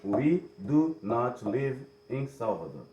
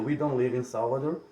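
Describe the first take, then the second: First: The negative is said in full, do not. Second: The negative is contracted to don't. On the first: The negation is emphasized. "se eles quisessem dar ênfase, eles diriam" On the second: A neutral, everyday statement. "ao invés de dizer"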